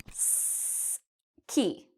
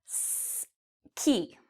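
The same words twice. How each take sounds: The two takes are said the same way.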